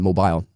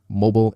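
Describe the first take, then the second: First: It is said with a British pronunciation. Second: It is said with an American pronunciation. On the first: "mobile is British English" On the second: "Mobile is American English"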